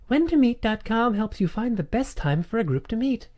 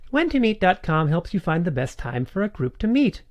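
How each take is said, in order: First: The voice sits higher and more open. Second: The voice sits low and deep. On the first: "Larynx up. Voice open" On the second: "It's low actually"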